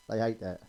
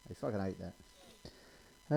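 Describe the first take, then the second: First: Said in the usual way. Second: Much softer, very slow, lower; slow hushed relish. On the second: Shown as a demonstration. Comic gloating at the miserable telly, hushed and slow. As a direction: savour "fucking" slowly under the breath.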